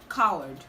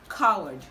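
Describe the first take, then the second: First: The W sound is left out. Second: The same.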